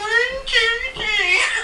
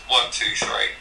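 First: It is said high-pitched and very nasal. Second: It is said in a normal voice.

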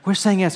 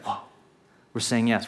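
First: It is said in a cheerful, celebratory tone. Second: It is said in a sober, awed tone.

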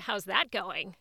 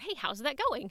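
First: It sounds sarcastic and doubtful. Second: It sounds sincere and supportive.

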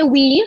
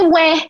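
First: The word sounds like English 'we'. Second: The word sounds like English 'where'. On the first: The speaker calls it wrong. "do you know they don't say we?" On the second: The speaker calls it right. "They say where"

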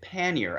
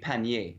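First: The word is pronounced with English sounds. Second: The word is pronounced with French sounds. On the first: "we pronounce it pannier, and that is to say with English phonetics" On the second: "so in French it would be pannier"

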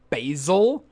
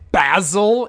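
First: The word is said with an American pronunciation. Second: The word is said with a British pronunciation. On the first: The speaker calls it right. "instead of basil" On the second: The speaker calls it wrong. "They say... basil instead of basil"

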